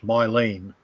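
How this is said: The name is said with an English pronunciation. "more like the English"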